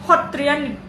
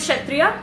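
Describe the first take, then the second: First: It is said in the Assamese pronunciation. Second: It is said in a non-Assamese pronunciation.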